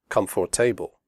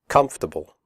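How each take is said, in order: First: The middle 'or' sound is fully pronounced. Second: The middle 'or' sound is left out. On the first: The speaker calls it wrong. "not comfortable" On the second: The speaker calls it right. "The O R is silent. We say comfortable"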